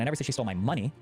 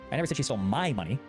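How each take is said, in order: First: The stress is on the word 'money'. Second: The stress is on the word 'my'. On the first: She took something else of mine. "I said she stole something of mine, but not my money" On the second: She took someone else's money. "I said she stole someone else's money"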